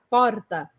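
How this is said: A Spanish-like R, tongue vibrating on the palate.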